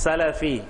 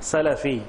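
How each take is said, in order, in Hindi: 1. l और f के बीच एक छोटा 'a' स्वर है। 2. l और f के बीच एक छोटा 'a' स्वर है।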